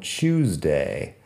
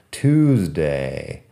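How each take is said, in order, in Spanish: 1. La palabra empieza con un sonido 'ch'. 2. La palabra empieza con un sonido 't' simple. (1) "como si hubiera una CH al principio. Eso es inglés británico" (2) "En inglés americano"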